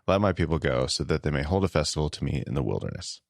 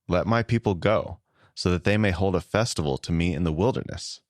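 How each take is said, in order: First: It is read flatly, falling at the end. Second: It is read expressively, with varied intensity. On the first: "you kind of come down at the end and it's just like very matter of fact, very like just not a lot of personality" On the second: "So here's how I read it now"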